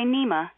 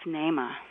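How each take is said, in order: First: The first vowel sounds like ee. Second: The first vowel sounds like ay. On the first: The speaker calls it wrong. "don't say Neema" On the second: The speaker calls it right. "That double E in the Swahili language has an A-A sound"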